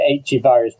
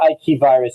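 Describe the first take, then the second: First: The letter is said with an English accent. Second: The letter is said with a French accent. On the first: "I say H virus" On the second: "you'd say Ike virus"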